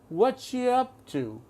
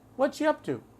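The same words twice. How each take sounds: First: The phrase is said slowly and deliberately. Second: The phrase is said quickly at conversational speed. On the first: "I'm going to slow it down" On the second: "Now normal speed"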